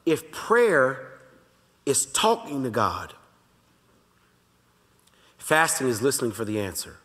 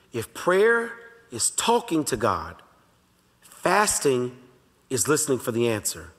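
First: Said in the usual way. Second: Each phrase spaced out very slowly for note taking; slow dictation. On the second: Shown as a demonstration. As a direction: say it slowly so they can write it down. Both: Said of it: "I want you to write this down".

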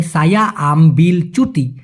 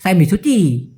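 First: Slow "সায়া আমবিল চুটি", each word apart; clear pronunciation. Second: "সাই আমি" run together, "চুটি" stretched; unclear slang pronunciation. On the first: Teacher giving the full phrase, slowly and clearly. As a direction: sound out the l in "আমবিল". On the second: Teacher showing the unclear version, slurred. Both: Shown as a demonstration. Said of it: "অতটা clear না করে".

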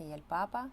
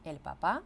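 First: "papa" with the weight on its first syllable, PA-pa; stress on first syllable. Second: "papá" with the weight on its last syllable, pa-PA; stress on final syllable. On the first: Teacher showing the stress difference, "papa" stressed at the start. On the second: Teacher showing the stress difference, "papá" stressed at the end. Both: Shown as a demonstration. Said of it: "Тут же різниця у наголосі".

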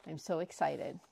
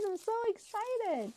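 First: Said in the usual way. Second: Much higher, squeaky voice; squeaky excitement. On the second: Real, not acted. Vlogger to viewers about her prize, squeaky excitement.

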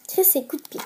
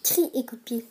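First: "Chris" read as the name, with the final s sounded /kʀis/; wrong title reading. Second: "Cri" as in a shout, no final s, /kʀi/; corrected title reading. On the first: ("Chris" prononcé avec le s final, comme le prénom) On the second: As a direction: say "Cri" cleanly, the word for a scream, s silent. ("Cri" prononcé /kʀi/, sans s, comme un cri) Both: Real, not acted. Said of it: "Euh, oups".

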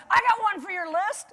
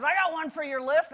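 First: Higher, louder call from the crowd; a woman in the audience calling out, higher and louder; woman yelling out. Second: Mild mock call from a man in the crowd; lightly voiced man calling out from the audience; guy yelling out. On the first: Retold or imitated. Audience woman shouting a suggestion to the speaker, high and louder. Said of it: "this woman yells out from the audience". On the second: Audience man calling out to the speaker, a hint of a yell. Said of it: "some guy yells out".

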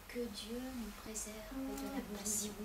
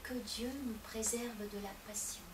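First: Soft murmured prayer said again; the boy repeats his prayer very softly; hushed prayer repeated. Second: Soft, low murmured prayer; a child murmuring a prayer alone in a corner; hushed child's prayer. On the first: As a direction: keep the prayer low and hushed. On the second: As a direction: pray under your breath like a small boy. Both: Acted. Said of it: "comme à son habitude".

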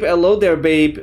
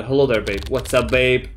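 First: Cheeky hello. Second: Mock suave hello. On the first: Pretend. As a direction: toss it out like a cheeky tease. Chat greeting options read aloud. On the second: Retries the greeting in another voice.

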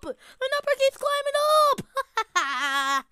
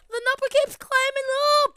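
First: Slow, high, stretched out like a tune; drawn-out sing-song. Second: Higher, louder thrilled cry; cheering the count on; excited. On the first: Acted. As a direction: savor each word, slow and high. Same line stretched out. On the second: Real, not acted. Crowing as the count rises.

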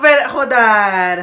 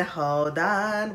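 First: Slow, loud "hold on"; stretched loud hold on; loud plea. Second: Said in the usual way. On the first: Real, not acted. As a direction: shout for everyone to wait. Overwhelmed fan pleading.

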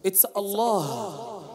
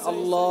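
First: Allah stretched long and slow; correct drawn-out Allah. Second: Allah clipped short with no stretch; wrong short Allah. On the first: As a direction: draw Allah out slowly. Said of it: "His Majesty name is Allah". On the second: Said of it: "you don't say". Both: Shown as a demonstration.

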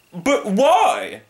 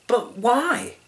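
First: Very high, loud wail; blustering hunter's protest; dismayed hunter. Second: Very high, innocent question; small-voiced, puzzled plea; plaintive young lion. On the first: Acted. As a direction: cry it in theatrical alarm. Hunter wails in alarm. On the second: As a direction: ask like a bewildered cub.

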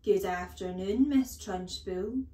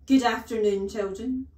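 First: Dutiful singsong class reply, drawn out; slow, rising chorus-style greeting; chirruped greeting. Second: Very loud, stern headmistress bark; loud, commanding call to the pupils; barked greeting. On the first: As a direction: chirrup it like obedient schoolchildren. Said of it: "they chirruped". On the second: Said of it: "she barked". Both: A narrator's reading.

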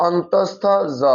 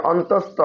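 First: অন্তস্থ জ in full, on-tos-tho jo; careful, spaced অন্তস্থ জ; correct letter name. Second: অন্তস্থ alone, cut short with no jo after it; common mispronunciation. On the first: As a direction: add a separate final জ after অন্তস্থ. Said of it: "সঠিক উচ্চারণ হচ্ছে যে". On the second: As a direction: say অন্তস্থ as on-tos-to. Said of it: "অনেক উচ্চারণ করে কি". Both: Shown as a demonstration.

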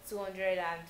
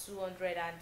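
Both takes have the same delivery.

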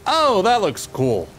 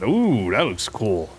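First: Higher, brighter slow delight; excited. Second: Slow low impressed purr; impressed ooh. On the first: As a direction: say it with eager delight. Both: Shown as a demonstration.

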